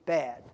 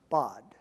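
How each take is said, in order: First: The vowel is a front 'a' as in cat. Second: The vowel is a back 'ah' sound. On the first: The speaker calls it wrong. "if we looked at it in English, you might pronounce it bad" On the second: The speaker calls it right. "it would be pronounced bod, kind of like about"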